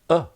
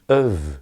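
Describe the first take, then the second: First: The word is a weak vowel with no v. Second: The word is said with a weak vowel. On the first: "or even a. The v can disappear" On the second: "It's normally of"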